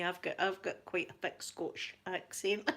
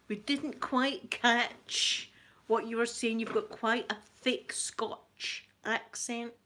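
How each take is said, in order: First: Said in the usual way. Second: Slow, drawn-out mock English accent; imitated English accent. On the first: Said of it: "That's me". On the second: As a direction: put on an English accent, spacing the words out slowly. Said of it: "like, English people saying".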